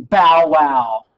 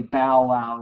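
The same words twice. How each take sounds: First: A loud, lightly barked bow wow; mock dog bark. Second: Said in the usual way. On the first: The dog barking at Jefferson, mock bark. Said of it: "The dog's going".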